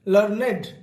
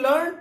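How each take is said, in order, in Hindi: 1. यह शब्द दो अक्षरों में बोला जाता है। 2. यह शब्द एक अक्षर में बोला जाता है। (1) "यहां पर इसका सही प्रोनाउंसिएशन उच्चारण है लर्नेड" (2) "कुछ लोग इसे लर्न पढ़ते हैं"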